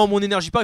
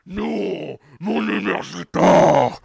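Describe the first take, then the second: First: It is said in a normal, plain voice. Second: It is said in a menacing villain voice. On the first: "Il fait pas" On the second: "il a une voix de méchant. ... il fait"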